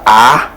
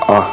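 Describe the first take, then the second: First: The vowel is front, open and bright. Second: The vowel is back, rounded and dark. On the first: The speaker calls it wrong. "ce n'est pas A, comme ami" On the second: The speaker calls it right. "on ouvre comme ça... de façon arrondie"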